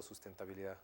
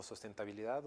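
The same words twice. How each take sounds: First: "sustentabilidad" starting SUS, with a u; first vowel of "sustentabilidad" as u; sus- pronunciation. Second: "sustentabilidad" starting SOS, with an o; first vowel of "sustentabilidad" as o; sos- pronunciation. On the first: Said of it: "lo traducirían como sustentabilidad o sustentabilidad". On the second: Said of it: "en español lo traducirían como". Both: Shown as a demonstration.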